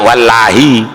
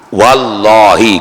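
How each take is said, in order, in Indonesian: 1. L-nya dibaca tipis. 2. L-nya dibaca tebal. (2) "jatuhnya lam jalalah tadi setelah fathah"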